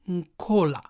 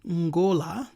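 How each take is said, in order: First: The consonant after the n is a k sound. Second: The consonant after the n is a g sound. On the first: "which can also be pronounced as Nkola, because K and G are interchangeable" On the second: "an example is seen in the word Ngola"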